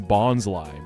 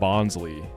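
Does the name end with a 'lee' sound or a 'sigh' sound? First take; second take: sigh; lee. First: The name ends with a 'sigh' sound. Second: The name ends with a 'lee' sound. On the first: The speaker calls it right. "It's bonsai, bonsai. It's right there" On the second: The speaker calls it wrong. "I see a lot of people saying Bonsley"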